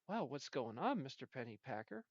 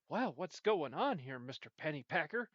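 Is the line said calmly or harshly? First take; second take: calmly; harshly. First: It is said calmly and easily. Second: It is said harshly, like an insult.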